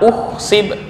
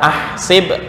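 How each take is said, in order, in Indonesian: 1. Kata ini diawali dengan vokal u. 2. Kata ini diawali dengan vokal a. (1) "atau dibaca uhsib" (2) "nggak boleh dibaca ahsib"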